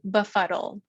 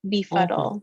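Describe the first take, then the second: First: The first vowel is a weak 'uh' sound. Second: The first vowel is a full 'ee' sound. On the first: "some people might say" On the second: "it's an open syllable"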